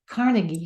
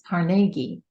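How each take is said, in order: First: It is said the Kansas City way. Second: It is said the Pittsburgh way. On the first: "I lived in Kansas City for a while, and their way of speaking for the word Carnegie" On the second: "But here in Pittsburgh, it's pronounced as Carnegie"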